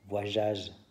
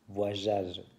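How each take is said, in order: The two takes are said the same way.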